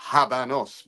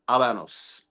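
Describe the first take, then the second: First: The word starts with an audible H sound. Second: The word starts with a silent H. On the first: The speaker calls it wrong. "you pronounce the H" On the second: The speaker calls it right. "The Spanish pronunciation ... is Habanos"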